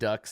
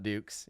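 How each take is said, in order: First: The vowel is a short 'uh' sound. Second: The vowel is a long 'oo' sound. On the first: The speaker calls it right. "D U X is ducks" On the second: The speaker calls it wrong. "not dukes"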